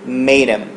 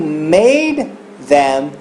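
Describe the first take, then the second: First: The th sound is dropped, sounding like made 'em. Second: The th sound in them is clearly pronounced. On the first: "virou made him" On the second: "o made them"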